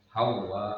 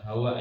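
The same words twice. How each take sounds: First: The vowel is drawn out long. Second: The vowel is kept short. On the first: The speaker calls it right. "panjang bacanya" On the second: The speaker calls it wrong. "Bukan hawa ya"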